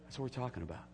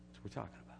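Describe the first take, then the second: First: Said in the usual way. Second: Whispered softly; whispered repeat; whispered echo. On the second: Shown as a demonstration. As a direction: breathe it out as a whisper.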